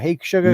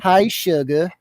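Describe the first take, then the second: First: It is said in his normal voice. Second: It is said in a put-on Louisiana voice.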